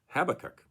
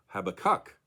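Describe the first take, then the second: First: The stress is on the first syllable. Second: The stress is on the third syllable. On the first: "with the emphasis on the first syllable" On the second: "with the emphasis, of course, on the third and final syllable"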